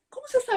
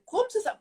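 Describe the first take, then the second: First: Much higher, amazed question; imitating puzzled husband again. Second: Much higher, amazed question; imitating puzzled husband. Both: Retelling husband Dino asking how she knew, high amazed question. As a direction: ask it incredulous, voice jumping up. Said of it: "O Dino falava".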